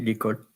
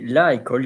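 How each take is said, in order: First: The article vowel is dropped and joined to the noun. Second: The article vowel is said separately before the noun. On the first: The speaker calls it right. "you say l'école for fluidity" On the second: The speaker calls it wrong. "you don't say la école"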